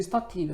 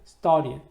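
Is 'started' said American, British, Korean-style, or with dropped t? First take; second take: Korean-style; dropped t. First: It is said in a Korean-style pronunciation. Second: The t sound is hidden, American-style. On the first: "우리 started, started라고 그러죠. 근데 제가 볼 때 그건 좋은 발음은 아니고요" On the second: "이 t 발음을 숨기는 경우도 있습니다"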